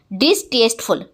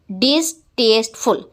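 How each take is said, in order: First: Said in the usual way. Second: डिसटेस्टफुल in three parts, "dis, taste, ful"; split into syllables. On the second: Shown as a demonstration. Teacher counting three syllables, डिसटेस्टफुल split as "dis... taste... ful". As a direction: say डिसटेस्टफुल as three separate beats. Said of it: "three syllable है".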